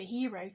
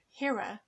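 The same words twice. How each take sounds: First: Said in the usual way. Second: "hira" with an "uh" ending, rhyming with mirror; "hira", second syllable reduced to "ruh"; altered pronunciation. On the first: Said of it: "as the word for hero". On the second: Shown as a demonstration. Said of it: "and nobody pronounces hira".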